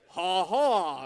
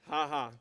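First: The laugh sounds genuine and lively. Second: The laugh sounds forced and flat.

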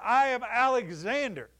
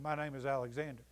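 First: It is declared loudly and firmly. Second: It is murmured quietly and hesitantly.

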